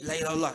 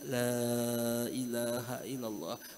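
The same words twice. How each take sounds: First: It is said bossily, like a command. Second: It is said softly and gently, close by. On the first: The dying person is ordered to recite it. The speaker calls it wrong. "Jangan eh la ilaha illallah, eh, bacalah" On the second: It is a quiet reminder without any order. The speaker calls it right. "Datangi telinganya"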